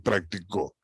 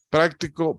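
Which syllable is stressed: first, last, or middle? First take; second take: last; first. First: The stress is on the last syllable. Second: The stress is on the first syllable. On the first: "Practicó, en co es la última sílaba" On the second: "en práctico la sílaba tónica es la primera"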